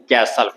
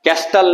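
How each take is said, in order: First: कैसल with the t left silent; कैसल with the silent t dropped; correct pronunciation. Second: कैस्टल with the t sounded, as the wrong way; कैस्टल pronounced with the silent t spoken; wrong pronunciation. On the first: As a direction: say कैसल as kay-sal, no t. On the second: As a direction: say कैस्टल with a clear t in the middle. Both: Shown as a demonstration. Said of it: "इसमें टी silent था".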